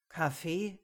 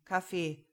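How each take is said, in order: First: "Kaffee" with a rising, questioning end; questioning repeat. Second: "Kaffee" with a falling, final tune; dismissive repeat. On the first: Jonas echoes her coffee question, "Kaffee" rising in puzzlement. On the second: Jonas says he has none, "Kaffee" falling dismissively. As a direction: drop "Kaffee" at the end as a statement. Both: A narrator's reading.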